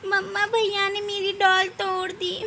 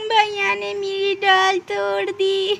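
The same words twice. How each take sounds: First: Said in the usual way. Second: Slow, high tearful complaint; whiny tearful child; crying child. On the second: Acted. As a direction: sob it out to mother.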